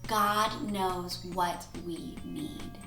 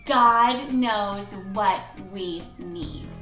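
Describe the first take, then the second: First: It is said at an ordinary volume. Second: It is said at a louder volume. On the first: "Can you guys say that with me?" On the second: "say it louder this time"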